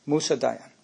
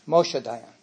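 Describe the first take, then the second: First: "Musa Dayan" with Musa as MOO-sah; the Arabic form Musa, not Moshe; name said as Musa. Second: "Moshe Dayan" with Moshe as MO-sheh; the Israeli general's name Moshe, not Musa. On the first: Speaker gives the Iranian visitor's real name, Musa. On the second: Speaker contrasts the visitor's name with Moshe Dayan. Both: Shown as a demonstration.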